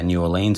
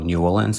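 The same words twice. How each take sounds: First: It is said the usual Australian way. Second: It is said the way locals there say it.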